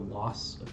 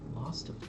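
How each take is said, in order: First: The word ends in a plain s sound. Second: The word ends with an added t sound. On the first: The speaker calls it right. "Instead of saying the loss of taste" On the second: The speaker calls it wrong. "you say lost"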